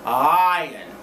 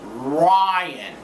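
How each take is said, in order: First: The R sound is weak and indistinct. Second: The R sound is strong and clearly pronounced. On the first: The speaker calls it wrong. "That's wrong" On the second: The speaker calls it right. "like that"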